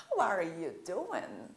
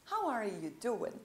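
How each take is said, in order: First: "how are you doing" slow, with an ornamented question melody; embellished question intonation. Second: Said in the usual way. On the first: Shown as a demonstration. Teacher shows how Brazilians like to dress it up, ornamented intonation on "how are you doing". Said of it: "adoramos fazer uma coisa mais enfeitada". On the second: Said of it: "não precisa fazer a entonação".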